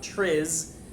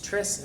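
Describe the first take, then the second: First: The name ends with a buzzing Z sound. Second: The name ends with a hissing S sound. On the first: The speaker calls it wrong. "and not Triz" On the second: The speaker calls it right. "It's Tris"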